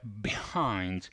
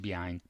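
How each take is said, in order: First: The word is said with strong emphasis. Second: The word is said plainly without emphasis. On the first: The speaker calls it right. "Avete sentito come enfatizza?" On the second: The speaker calls it wrong. "Non dice behind"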